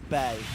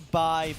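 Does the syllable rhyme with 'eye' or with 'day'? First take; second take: day; eye. First: The vowel sounds like the word 'day'. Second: The vowel sounds like the word 'eye'. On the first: "it could be also bay" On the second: "could be by"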